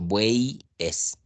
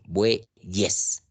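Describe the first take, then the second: First: The y is a vowel ending the first syllable. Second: The y is a consonant starting the second syllable. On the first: The speaker calls it wrong. "Yo no pronuncio buey es" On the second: The speaker calls it right. "aquí está cumpliendo la función de Y esta letra"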